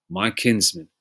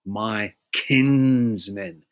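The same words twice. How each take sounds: First: Said in the usual way. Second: KINSMEN drawn out very slowly; my KIIINS-men, lingering on the word; stretched emphasis. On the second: Real, not acted. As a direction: hold the first syllable of kinsmen long and strong. Repeats verse word to stress it.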